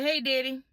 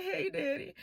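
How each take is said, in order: First: Said in the usual way. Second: High, soft, imitated tearful greeting; mock weepy little-girl plea; crying. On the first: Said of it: "I said, I said". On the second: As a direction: whimper it as if in tears. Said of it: "but I'm crying".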